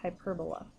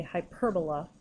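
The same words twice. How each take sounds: First: Hyperbola said quietly, hy-PER-bo-la with PER stressed; soft repeat of Hyperbola for students to copy. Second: Hyperbola said hy-PER-bo-la, stress on the second syllable PER; teacher modelling how hyperbola is pronounced. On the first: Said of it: "try practicing saying that out loud". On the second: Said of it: "when you pronounce it, you say". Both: Shown as a demonstration.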